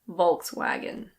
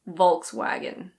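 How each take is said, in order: First: It is said with an American pronunciation. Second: It is said with an American pronunciation.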